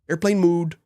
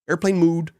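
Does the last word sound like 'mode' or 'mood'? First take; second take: mood; mood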